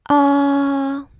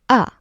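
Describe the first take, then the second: First: The pitch stays high and level. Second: The pitch drops sharply and briefly. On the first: "Tone one is high, flat, like a dentist saying ah" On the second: "the last one is the drop. Short, angry"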